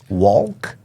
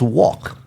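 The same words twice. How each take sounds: First: The L sound is pronounced in the word. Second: The L sound is silent in the word. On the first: The speaker calls it wrong. "Did you sound the L there?" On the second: The speaker calls it right. "It's correct, but it's silent"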